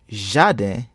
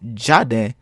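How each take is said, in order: First: The word begins with a soft 'zh' sound. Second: The word begins with a hard 'dj' sound. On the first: The speaker calls it right. "If you pronounced it as jardin, ... then you are correct" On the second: The speaker calls it wrong. "not as jardin"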